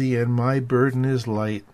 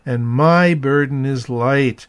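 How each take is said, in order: First: The word 'my' is not especially emphasized. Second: The word 'my' is strongly emphasized.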